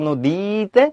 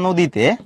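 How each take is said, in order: First: The long vowel is stretched out. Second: The vowel is said short and normally. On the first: The speaker calls it wrong. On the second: The speaker calls it right.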